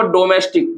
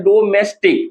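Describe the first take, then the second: First: Said in the usual way. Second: domestic in three separate beats; split into syllables. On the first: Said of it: "domestic को हम लोग". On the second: Shown as a demonstration. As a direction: break domestic into do-mes-tik. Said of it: "तीन भाग में तोड़ते हैं".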